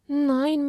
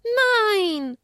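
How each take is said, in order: First: Small sobbed Nein; mild sobbing child; meek sobbing. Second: High, loud cry of Nein; high child shout. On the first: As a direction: give in tearfully. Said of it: "schluchzte sie kleinlaut". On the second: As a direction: yell Nein in protest. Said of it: "schrie Esther". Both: Acted.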